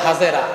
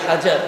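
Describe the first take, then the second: First: The name is said as three-syllable Hajera. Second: The name is said as two-syllable Hajar. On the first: This is the local Bengali form of the name. "আমরা বলে হাজেরা" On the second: This is the Arabic form of the name. "আরবিতে হাজার"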